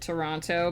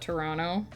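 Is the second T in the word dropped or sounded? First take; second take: sounded; dropped. First: The second T is clearly sounded. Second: The second T is dropped. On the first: This is how the spelling suggests it. "when you see Toronto on a map, you pronounce it" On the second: This is how locals say it. "if you live there, people just call it"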